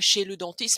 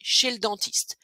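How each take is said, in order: First: The vowel in 'le' is fully pronounced. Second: The vowel in 'le' is dropped. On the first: The speaker calls it wrong. "vous dites pas" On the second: The speaker calls it right.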